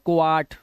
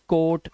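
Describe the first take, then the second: First: The vowel is split into o then a. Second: The vowel is a single long o sound. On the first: The speaker calls it wrong. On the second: The speaker calls it right.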